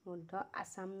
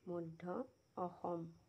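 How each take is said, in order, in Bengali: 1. নামটি ইংরেজি ধাঁচে উচ্চারিত হয়, যেমন Assam। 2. নামটি অসমীয়া ধাঁচে উচ্চারিত হয়, যেমন Oxom। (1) "মধ্য আছাম নহয় দেই" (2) "ধুনীয়াকৈ নামটো ক'লে ভাল লাগে"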